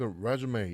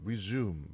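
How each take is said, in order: First: The word ends with an 'ay' vowel sound. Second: The word ends with an 'm' sound. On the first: It is a noun meaning a CV. "그 resume 이렇게 읽으면 이력서란 뜻인데" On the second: It is a verb meaning to continue. "그냥 영어 발음처럼 resume 뭐 이런 식으로 읽으면 얘는 이제 재개하다, 속행하다라는 영어 동사가 돼요"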